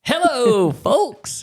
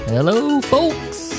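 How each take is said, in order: First: It is said brightly, with high energy. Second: It is said tiredly, with low energy.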